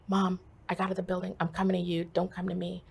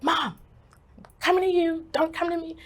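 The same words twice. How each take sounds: First: Said in the usual way. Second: High, loud, insistent plea; urgent insistence. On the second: Retold or imitated. Daughter phoning mom after escaping the building, urgent insistence. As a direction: push the message out high and urgent. Repeats message more urgently to mother.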